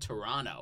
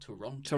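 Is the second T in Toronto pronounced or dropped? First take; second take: dropped; pronounced. First: The second T sound is dropped. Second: The second T sound is clearly pronounced. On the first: The speaker calls it wrong. "It's not Toronto" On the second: The speaker calls it right. "There you go. You enunciate"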